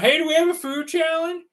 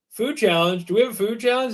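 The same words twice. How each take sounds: First: High-pitched mock call across a restaurant; imitated yelling. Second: Lightly voiced new employee asking, puzzled; puzzled question, pitch lifting as it goes; a hint of an unsure phone answerer; clueless new guy. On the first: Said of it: "they're yelling through the restaurant". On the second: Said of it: "the new guy answers the phone".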